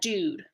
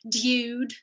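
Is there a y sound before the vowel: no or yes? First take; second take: no; yes. First: No y sound comes before the vowel. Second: A y sound comes before the vowel. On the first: The speaker calls it right. "we say" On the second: The speaker calls it wrong. "We don't say dude"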